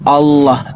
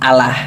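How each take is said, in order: First: The L is said heavy and thick. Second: The L is said light and thin. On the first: The speaker calls it right. "tabkhim gitu, tebal" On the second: The speaker calls it wrong. "hanya mengikuti logat mereka"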